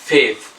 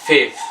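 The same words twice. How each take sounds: Both takes have the same delivery.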